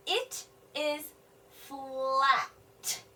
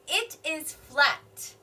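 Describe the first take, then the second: First: Very slow, word by word; slow sounding out. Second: Said in the usual way. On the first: Shown as a demonstration. Teacher decoding the sentence for children, very slow. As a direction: sound out "flat" slowly. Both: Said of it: "noticing something about the gift".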